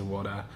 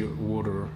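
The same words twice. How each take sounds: First: Said in the usual way. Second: Attempted American "water"; American accent. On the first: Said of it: "like, I say water". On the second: Shown as a demonstration. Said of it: "trying to say water in, like, an American accent".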